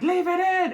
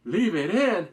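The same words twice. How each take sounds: First: High, loud shouted command; imitating the inspector shouting an order; barked order. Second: Loud, puzzled repeat of "Leave it in?"; a viewer echoing the order in confusion; baffled echo. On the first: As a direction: yell the order across the room. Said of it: "the inspector like". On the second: Retold or imitated. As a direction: throw the order back in disbelief. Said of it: "And I'm like".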